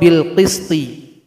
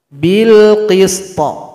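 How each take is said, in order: First: The word ends with a short i vowel. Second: The final t is released with a bounce. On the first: The reading continues without stopping. "huruf to yang kasroh" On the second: The reader stops on this word. "Cara membacanya harus ada qalqalah"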